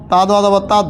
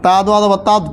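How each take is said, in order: Both takes have the same delivery.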